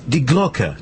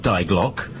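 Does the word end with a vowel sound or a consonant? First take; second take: vowel; consonant. First: The word ends with an extra vowel syllable. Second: The word ends abruptly on the consonant. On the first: The speaker calls it right. "it's Die Glocke" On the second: The speaker calls it wrong. "not Die Glock"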